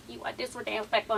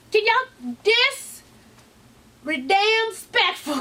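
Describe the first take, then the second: First: Said in the usual way. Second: Dis-redamn spectful, stretched very slow and high; drawn-out catchphrase. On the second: Shown as a demonstration. Vlogger showing off the word printed on her shirt, slow and pitched up. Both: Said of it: "That's what it's on my shirt".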